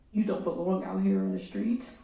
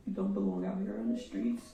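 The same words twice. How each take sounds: First: Loud and firm at the defendant; grieving mother, louder accusation; angry. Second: Repeated in a broken, airless whisper; grieving mother, voice gone from crying; choked whisper. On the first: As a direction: lay it down hard. Addressing the killer in court. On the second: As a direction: barely get it out through tears. Repeats it after apologising, choked. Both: Real, not acted.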